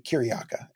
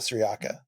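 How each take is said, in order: First: The name begins with a hard K sound. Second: The name begins with a soft S sound. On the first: The speaker calls it right. "in Byzantine times, uh, where the saint comes from, it would be Kyriaka" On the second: The speaker calls it wrong. "our pronunciation of uh, Syriaca is probably wrong"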